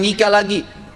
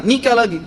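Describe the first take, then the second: First: Said in the usual way. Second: "Nikah lagi" said firmly, NIKAH hit hard. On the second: Retold or imitated. Ustadz firmly answering the deserted husband's question, decisive. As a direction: state "Nikah lagi" flatly and decisively, no room for doubt. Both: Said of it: "Dengan tegas saya bilang".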